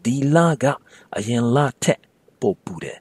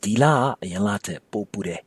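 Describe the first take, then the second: First: The sentence is spoken slowly and carefully. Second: The sentence is spoken quickly with reduced syllables. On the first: "Put it all together" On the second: "Speaking quickly, it might sound like"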